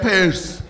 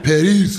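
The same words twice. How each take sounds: First: "Paris" said short and flat, like "Pess"; her flat way of saying Paris. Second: "Paris" in an African accent, rolled r, "Pa-ris" with a bright ee. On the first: Retold or imitated. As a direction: mimic her clipped "Paris" with no lilt. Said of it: "You were like". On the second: Shown as a demonstration. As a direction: show how Africans say "Paris". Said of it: "that's how Africans talk".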